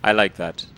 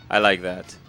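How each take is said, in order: Both takes have the same delivery.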